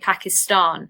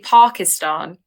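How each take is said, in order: First: The stress falls on the last syllable. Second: The stress falls before the last syllable. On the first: This is how it is said in Britain. "the British emphasis is on the last part of that sentence. Part of that word" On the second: This is how it is said in Pakistan. "so you would say Pakistan"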